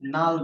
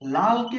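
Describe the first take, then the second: First: The word begins with an n sound. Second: The word begins with an l sound. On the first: Many people say it this way. "অনেকে নাল বলে" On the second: This is the standard form.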